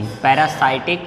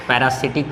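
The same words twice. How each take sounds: First: पैरासाइटिक with "sight" in the third syllable; long-i pronunciation. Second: पैरासिटिक with "sit" in the third syllable; alternative pronunciation. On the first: Teacher giving pupils the term, पैरासाइटिक said with a "sight" sound. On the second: Teacher showing pupils how some say it, पैरासिटिक with a "sit" sound. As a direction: say पैरासिटिक as para-SIT-ik, lower. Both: Shown as a demonstration. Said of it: "कुछ लोग पैरासिटिक भी बोलते हैं".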